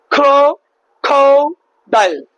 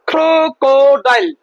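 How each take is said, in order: First: crow- then খো-ডাইল, slow with gaps; broken into syllables. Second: Said in the usual way. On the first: Shown as a demonstration. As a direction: chop the word into clear beats. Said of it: "তিনটা ভাগে". (Syllable আলাদা করে ধীরে) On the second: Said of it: "আরেকটা example দেখাচ্ছি".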